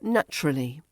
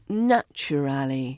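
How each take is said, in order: First: The word is shortened, with syllables squeezed together. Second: All the syllables are said in full.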